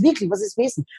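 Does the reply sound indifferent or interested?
interested. The reply sounds lively and interested.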